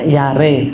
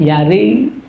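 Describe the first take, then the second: First: The final vowel is a middle e sound. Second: The final vowel leans toward an i sound. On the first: "Yare jadi tengah-tengah e" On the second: "ada yang lebih ke kasroh"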